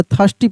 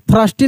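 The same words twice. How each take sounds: First: "थर्स्टी" said "thasti", no R; silent R. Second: "थर्स्टी" with the R sounded; wrong R-sounded pronunciation. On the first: Teacher giving the reading to learn, "थर्स्टी" with silent R. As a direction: drop the R in "थर्स्टी". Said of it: "यहाँ पे आर silent रहता है". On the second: Teacher showing what not to read, "थर्स्टी" with R voiced. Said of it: "थर्स्टी नहीं पढ़ेंगे". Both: Shown as a demonstration.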